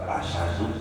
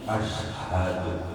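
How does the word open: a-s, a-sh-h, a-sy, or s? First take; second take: a-sy; a-sh-h. First: It has a vowel, then sh, without h. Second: It has a vowel, sh, then a breathy h. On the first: The speaker calls it wrong. "bukan asyadu" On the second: The speaker calls it right. "tapi ashadu"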